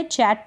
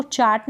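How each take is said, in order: First: चैट with an open "ae"; correct vowel demo. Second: चाट with a long "aa"; mispronunciation demo. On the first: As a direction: say चैट like English "chat". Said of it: "चैट पढ़ेंगे". (चैट में ऐ की मात्रा) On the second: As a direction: open चाट out to "chaat". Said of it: "इसको चाट ना पढ़े". (चाट में आ की मात्रा) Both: Shown as a demonstration.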